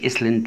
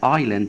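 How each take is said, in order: First: An s sound is pronounced in the middle. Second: No s sound is pronounced in the middle. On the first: The speaker calls it wrong. "ما اقولش اسلند" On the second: The speaker calls it right. "الاحظ حرف الاس ما اتنطقش"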